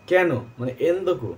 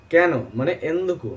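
The two takes are said the same way.

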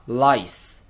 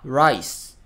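First: "ライス" as English lice, starting with L; tongue-tip L opening "ライス". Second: "ライス" as English rice, starting with R; curled-tongue R opening "ライス". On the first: Teacher contrasts L with R, lice with English L. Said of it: "シラミですね". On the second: Teacher contrasts R and L, rice with English R. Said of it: "お米ですよね". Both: Shown as a demonstration.

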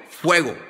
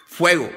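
No difference in how they are said.

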